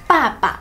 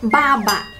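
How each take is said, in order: First: Each syllable begins with an unaspirated p sound. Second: Each syllable begins with a voiced b sound. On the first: The speaker calls it right. "แต่ในภาษาจีนตัวนี้ค่ะมันออกเสียงว่าป้าปะ" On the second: The speaker calls it wrong. "ถ้าเกิดใครไม่รู้คิดว่ามันเหมือนภาษาอังกฤษอาจจะออกเสียงคำนี้ว่าบ้าบะ"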